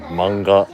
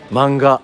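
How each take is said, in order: First: It is said with a Japanese pronunciation. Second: It is said with an English pronunciation. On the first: It follows the original language. "You accidentally use the Japanese pronunciation" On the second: It follows common usage. "I said it the way that other people say it"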